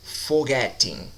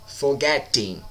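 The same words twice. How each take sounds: First: Forgetting slowed, the E syllable leaned on; stress on the E in Forgetting. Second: Said in the usual way. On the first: Shown as a demonstration. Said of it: "Atenção na vogal tônica, que é o E". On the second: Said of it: "Atenção na vogal tônica".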